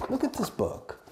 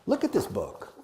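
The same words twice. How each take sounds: First: Silly high voice. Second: Said in the usual way. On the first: Shown as a demonstration. Repeats line in silly voice. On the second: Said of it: "repeats line in silly voice".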